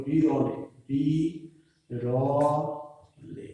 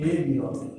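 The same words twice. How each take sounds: First: বিরলে stretched very slowly, বি-র-লে with each syllable sung apart; half-sing বিরলে, বিরলে very slowly, syllable by syllable; drawn-out syllables. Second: এ বিরলে read plainly as one phrase with a falling end; plain verse reading. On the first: Teacher slowly sings out বিরলে so students can count its syllables. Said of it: "আলাদা আলাদা আমরা উচ্চারণ করতে পারছি". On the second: Teacher reads এ বিরলে as part of the verse line, plainly. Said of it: "এ বিরলে, এ বিরলে". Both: Shown as a demonstration.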